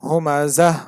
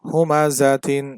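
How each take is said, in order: First: The word ends with a soft 'h' sound. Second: The word ends with a full 'tin' sound. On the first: The reader stops on this word. "এখানে থামলে হবে হুমা জাহ" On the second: The word is read in full without stopping. "একবার আমি পূর্ণাঙ্গটা উচ্চারণ করছি, যেটা বানান করলে যেটা হয়"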